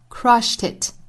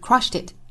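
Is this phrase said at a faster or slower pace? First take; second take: slower; faster. First: It is said at a slower pace. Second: It is said at a faster pace.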